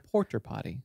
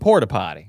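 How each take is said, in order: First: It is said in a posh, upper-class accent. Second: It is said in a rural, redneck accent. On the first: The speaker is in high-class company. "if you're in high class company, you go" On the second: The speaker is in redneck company. "If you're with redneck company, you go"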